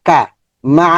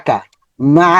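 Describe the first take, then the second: Both takes have the same delivery.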